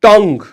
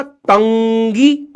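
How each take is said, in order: First: टंग as one syllable, no ee at the end; single firm falling टंग; actual English pronunciation. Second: टंगी drawn out, tung-gee with rising ee; very slow two-syllable टंगी, ending up; supposed logical pronunciation. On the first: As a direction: land loud on टंग, ending silent. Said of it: "अंग्रेजी भाषा इसको बोलती है टंग". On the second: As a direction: add a long ee to tongue, टंगी. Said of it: "ये क्या होना चाहिए था?". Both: Shown as a demonstration.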